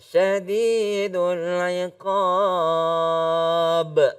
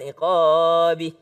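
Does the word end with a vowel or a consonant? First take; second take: consonant; vowel. First: The word ends on a bare consonant. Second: The word ends with an extra i vowel. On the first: The speaker calls it right. "kalau berhenti dia akan menjadi sukun" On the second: The speaker calls it wrong. "Jangan iqabi ya"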